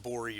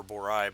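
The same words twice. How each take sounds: First: "Bori" ending in an ee sound; "Bori" with a long E at the end; alternate pronunciation. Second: "Borai" ending in an eye sound; "Borai" with a long I at the end; alternate pronunciation. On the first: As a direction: say "Bori" to rhyme with story. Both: Shown as a demonstration. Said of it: "whether it's pronounced Bori or Borai".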